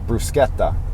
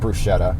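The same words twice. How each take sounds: First: The ch is said as a hard k sound. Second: The ch is said as a soft sh sound. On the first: The speaker calls it right. "The C H is like a K sound" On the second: The speaker calls it wrong. "they don't say bruschetta"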